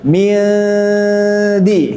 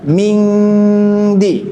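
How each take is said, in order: First: The nasal is hidden, tongue held loose before d. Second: The nasal is a back ng sound. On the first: The speaker calls it right. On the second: The speaker calls it wrong.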